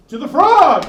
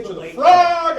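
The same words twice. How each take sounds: First: High rallying call; mock heroic cry. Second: High heroic rallying shout; rally the troops, high and bold; animated battle cry. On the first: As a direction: charge like a hero into battle. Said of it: "So I was like". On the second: Retold or imitated. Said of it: "I got animated".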